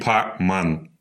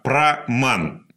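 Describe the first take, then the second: First: The word is said without an R sound. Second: The word is said with an R sound. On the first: "они часто «Р» не говорят" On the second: "«праман» правильно"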